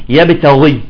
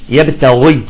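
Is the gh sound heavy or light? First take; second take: heavy; heavy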